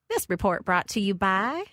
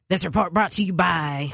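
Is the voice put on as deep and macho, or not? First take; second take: not macho; deep macho. First: It has a country twang without a deep macho voice. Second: It is put on as a deeper, macho voice. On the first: "That sounded a little too country" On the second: "That sounded a little like country and testosterone"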